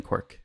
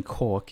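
First: "Cork" with a w-glide, like "kwork"; imitated pronunciation. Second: "Cork" said as a plain American would, without a glide; contrasting pronunciation. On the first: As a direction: mimic his "Cork", rounding into "kwork". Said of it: "So you didn't live in Cork". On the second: Shown as a demonstration. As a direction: say "Cork" with a simple open vowel. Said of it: "You lived in Cork".

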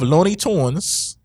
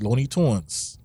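First: "Tunes" with a long oo, like "toonz"; "Tunes" as in songs. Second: "Tunes" said slowly with a rounder vowel; contrasting spelling shown. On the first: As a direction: say "Looney Tunes" slowly, ending in TOONZ. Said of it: "T U N E S". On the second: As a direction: say "Looney Tunes" slowly, rounding "Tunes" toward "tawnz". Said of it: "double O N S". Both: Shown as a demonstration.

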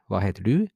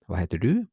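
No difference in how they are said.

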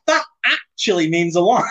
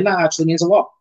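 First: "actually" hit hard in a higher voice; playful over-emphasis on "actually", about to laugh; exaggerated emphasis. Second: Said in the usual way. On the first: Shown as a demonstration. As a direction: overdo the stress on "actually". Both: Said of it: "I don't know why I said it like that".

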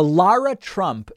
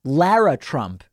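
First: Lara said as LAH-ruh; broad-A pronunciation. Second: Lara said as LARR-uh, with the A of "cat"; short-A pronunciation. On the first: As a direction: say Lara with an open "ah" in the first syllable. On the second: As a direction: say Lara with a flat "a" in the first syllable. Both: Shown as a demonstration. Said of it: "is it Lara or Lara?".

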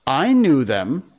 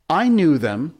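First: High, drawn-out claim; doubtful. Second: High, loud, needling brag; teasing boast. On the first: Michael copies John's boast to the others, doubtful. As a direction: stretch it out, not quite sure. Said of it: "Michael said rather doubtfully". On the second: John bragging to annoy the other boys, teasing. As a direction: show off to annoy, pitched up. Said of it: "John said, to annoy the others". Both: A narrator's reading.

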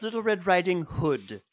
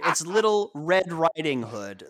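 First: "Little Red Riding Hood" with the weight off "Riding" and onto "Hood"; wrong emphasis imitation. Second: "Riding" carries the weight, "Hood" falls away; "Little Red Riding Hood" with emphasis on "Riding"; stress on RIDING. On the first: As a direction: imitate Stu, setting "Hood" apart at the end. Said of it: "how Stu pronounces Red Riding Hood". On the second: Shown as a demonstration. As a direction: correct it by leaning on "Riding". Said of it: "The emphasis is on the riding".

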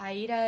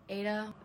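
First: Aida said as "eye-EE-da"; "Aida" with the first syllable like "eye", then "EE-da"; first try at the name. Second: Aida said as "AY-da"; "Aida" corrected to two syllables, "AY-da"; corrected name. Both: Shown as a demonstration.

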